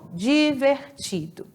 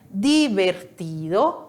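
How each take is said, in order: First: It is pronounced with a Portuguese r sound. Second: It is pronounced with a Spanish r sound.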